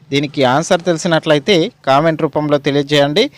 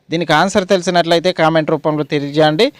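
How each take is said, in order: No difference in how they are said.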